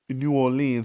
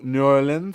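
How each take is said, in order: First: The name is said the British way. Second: The name is said the American way.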